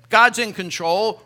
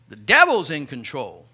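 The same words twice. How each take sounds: First: Loud, slow, confident assurance; confident contentment. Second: Low, ominous voice of worry. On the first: Contentment personified answering worry, loud and sure. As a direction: declare it calmly and firmly. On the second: Worry personified answering contentment, low and ominous. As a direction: drop the voice low and dark. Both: Pretend.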